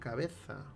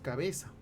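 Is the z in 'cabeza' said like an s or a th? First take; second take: th; s. First: The z is said like a th. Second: The z is said like an s. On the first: "Lo ideal sería cabeza" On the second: "También hay ceseo"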